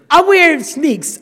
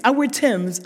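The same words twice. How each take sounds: First: Wear stretched slow and loud; stress on wear. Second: Said in the usual way. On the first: Shown as a demonstration. Telling the audience about her shoes with stress on wear. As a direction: lean on "wear" in "I wear sneaks" slowly.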